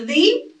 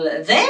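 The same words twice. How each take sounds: First: "the" said high as thee; "the" with a long ee, raised; "the" as thee before a vowel; two ways to say the. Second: "the" said low as thuh; "the" with a short schwa, low; "the" as thuh before a consonant; two ways to say the. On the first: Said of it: "or the article". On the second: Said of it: "pronunciation of the article". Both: Shown as a demonstration.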